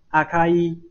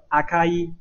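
First: The middle k is unaspirated and light. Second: The middle k is unaspirated and light.

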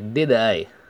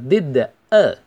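First: The two words are linked together. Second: The two words are said separately.

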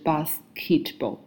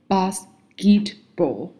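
First: The consonant after s sounds like a strong k. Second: The consonant after s sounds like a soft g. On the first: The speaker calls it wrong. "而不是basketball" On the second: The speaker calls it right. "在s 音后面k 也要相应的读成自己的浊辅咽g，比如说basketball"

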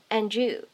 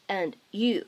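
First: The final sound blends into the next word. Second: The two words are pronounced apart without blending. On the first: "你可以选择做一个音的同化，可以读成and you" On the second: "读成分开的and you 也是完全没有问题的"

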